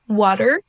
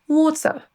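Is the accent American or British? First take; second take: American; British. First: The word ends with a clearly pronounced R. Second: The word ends with a schwa and no R. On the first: "avec d'abord l'accent U S" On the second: "ensuite l'accent britannique"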